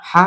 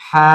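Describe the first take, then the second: First: Said in the usual way. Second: হা held long on a steady vowel; drawn-out letter name. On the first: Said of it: "উচ্চারণ হলো". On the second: Shown as a demonstration. Teacher naming a letter for learners, drawn out. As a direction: stretch হা right out. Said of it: "টেনে বলতে হবে".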